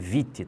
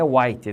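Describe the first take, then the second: First: The name begins with a V sound. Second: The name begins with a W sound. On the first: The speaker calls it right. "é Vitti" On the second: The speaker calls it wrong. "e não é White"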